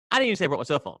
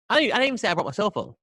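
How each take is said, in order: First: Said in the usual way. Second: Fast, higher, hurried backpedal; hasty mock-panicked denial; frantic denial. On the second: Real, not acted. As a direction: rush to take it all back. Frantic denial about the VPN.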